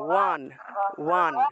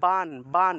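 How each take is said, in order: First: The lips stay apart, giving a w sound. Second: The lips close, giving a b sound. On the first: "এইভাবে ঠোঁট না লাগিয়ে বান উচ্চারণ করলে দেখবেন ওয়ান উচ্চারণটা আসে" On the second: "দুইটা ঠোঁট লাগিয়ে ব উচ্চারণ করতে হয়"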